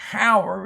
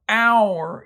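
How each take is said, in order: First: The word begins with an audible H sound. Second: The word begins without any H sound. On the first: The speaker calls it wrong. "You don't say hour" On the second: The speaker calls it right. "the H is silent"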